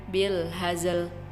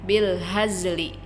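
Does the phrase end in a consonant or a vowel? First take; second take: consonant; vowel. First: The phrase ends with a bare consonant. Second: The phrase ends with a short vowel.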